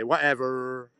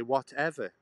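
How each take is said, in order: First: "Whatever" in a mock American accent, louder, with a twangy r at the end; a hint of an American accent on "Whatever". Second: Clipped British "Whatever" with a falling end; plain British English "Whatever". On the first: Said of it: "and you say". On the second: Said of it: "We say". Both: Shown as a demonstration.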